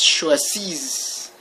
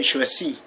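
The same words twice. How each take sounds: First: "choisis" ending on a long audible hiss; "choisis" with the final S clearly pronounced; sounded final S. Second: "choisis" ending on an open ee; "choisis" with the final S left silent. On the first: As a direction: say "choisis" as shwa-zeess, with the last S heard. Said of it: "you actually have to pronounce an S". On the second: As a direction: say "choisis" as shwa-zee, no S at the end. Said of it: "pretty much pronounced the same way". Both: Shown as a demonstration.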